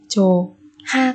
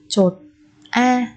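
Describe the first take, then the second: First: An h sound starts the second syllable. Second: A t sound closes the first syllable. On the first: "cũng không đọc là chủ ha" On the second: "không đọc là chột a"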